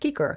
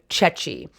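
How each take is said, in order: First: The word starts with a hard K sound. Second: The word starts with a CH sound. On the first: This is the older pronunciation. "this would have been pronounced Kiker" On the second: This is the later pronunciation after sound changes. "it's the C H sound"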